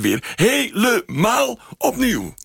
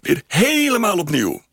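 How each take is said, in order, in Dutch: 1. Een woord wordt uitgerekt en lang aangehouden. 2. Een woord krijgt klemtoon zonder uitgerekt te worden. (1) "Hij rekt het woord uit als het ware" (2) "Je zou ook een accent kunnen leggen door te zeggen"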